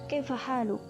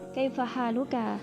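First: It is said quickly and clipped short. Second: It is said at a normal, unhurried pace.

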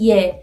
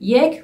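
First: The word is said short, without the final k. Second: The word is said in full, with the k. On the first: This is the everyday informal form. "people usually say ye" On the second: This is the formal form. "yek formal"

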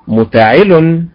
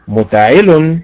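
No difference in how they are said.

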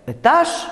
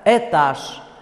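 First: The first vowel is reduced to 'y' with an 'e' tinge. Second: The first vowel is a full, clear 'e'. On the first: "произносится «ы» с призвуком «э»" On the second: "может произноситься как безударный «э»"

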